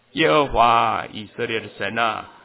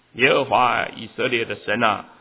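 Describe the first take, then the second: Both takes have the same delivery.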